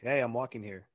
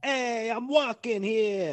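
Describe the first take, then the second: First: It is said in the speaker's own accent. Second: It is said in an imitated New York accent. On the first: The speaker talks this way. "And I'm like" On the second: Other people talk this way. "It's like, ... That's how they talk all the time"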